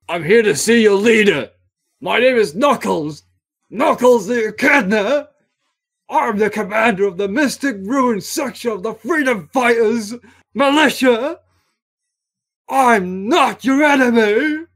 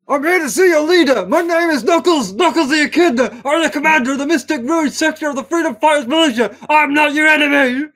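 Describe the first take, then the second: First: It is read at normal pace with pauses. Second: It is rushed out nearly in one breath.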